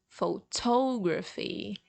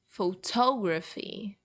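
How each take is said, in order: First: The stress is on the second syllable. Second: The stress is on the second syllable.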